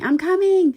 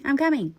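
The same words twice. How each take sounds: First: High, loud panicked yell upstairs; frantic call to an angry dad, yelled; retold yelling. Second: A louder second call, not as high; teen still calling to dad, fading yell; yelling, easing off. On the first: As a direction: shout it as you run down the stairs. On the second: Retold or imitated. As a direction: keep yelling but come down a notch. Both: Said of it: "the whole time yelling".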